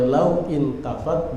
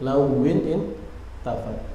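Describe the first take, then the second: First: Law is said separately with no linking vowel. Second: Law is linked to the next word by -in. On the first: "Kalau law berarti intafat" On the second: "di wasal lawin tafat"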